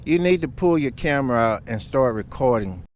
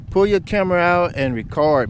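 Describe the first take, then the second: First: Said in the usual way. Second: Louder, higher, urgent repeat of Pull your camera out and record. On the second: Real, not acted. Telling viewers after a crash, urgent emphatic warning.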